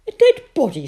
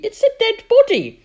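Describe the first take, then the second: First: High, loud puzzled echo; surprised question. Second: Put-on high, loud panicked girl's cry; shouting in alarm. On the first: Acted. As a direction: toss the words back, puzzled. Mother repeats Sophie's alarm. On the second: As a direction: shriek the discovery in shock. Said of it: "shouted Sophie".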